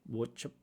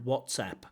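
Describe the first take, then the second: First: The sounds are slurred together loosely. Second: Each sound of the word is said crisply. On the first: The speaker calls it wrong. "a little bit like a lazy pronunciation of WhatsApp" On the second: The speaker calls it right. "I think that's clear pronunciation"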